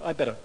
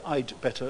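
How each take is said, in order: First: No d sound is heard before 'better'. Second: A d sound is heard before 'better'. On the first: "You hear I better" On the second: "You don't hear I'd better very much"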